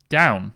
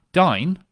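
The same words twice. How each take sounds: First: Said in the usual way. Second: "Dine", the Northern Irish way of saying "Down", with the vowel like "eye"; Northern Irish accent. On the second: Shown as a demonstration. Explaining a misread birthplace, "Dine" in a Northern Irish accent. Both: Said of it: "spoken in a Northern Irish accent".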